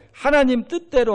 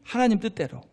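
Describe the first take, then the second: First: 하나님 lifted higher and pressed, then falling; stress on 하나님. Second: Said in the usual way. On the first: Shown as a demonstration. Preacher driving 하나님 home to the congregation, stressed. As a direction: lean into 하나님 as the key word. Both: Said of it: "누구 마음대로?".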